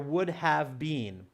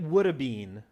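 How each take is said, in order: First: Have is said in full as a separate word. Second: Have is shortened into a 've' contraction.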